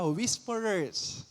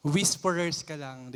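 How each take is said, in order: First: "Whisperers" drawn out slow and soft; savoring the word. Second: Said in the usual way. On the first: Shown as a demonstration. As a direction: relish "Whisperers" as something lovely. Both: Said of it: "Ang ganda pakinggan".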